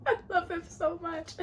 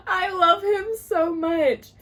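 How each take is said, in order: First: High, small, teary squeak; tearful gushing. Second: High, loud, slow declaration of adoration; gushing wail. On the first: Reader overcome by the hero's kindness, tearful gushing. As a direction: gush softly through a laughing near-sob. Gushing over the book's hero. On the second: Reader declaring love for the hero, loud drawn-out gushing. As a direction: wail it out, stretching the words. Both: Real, not acted.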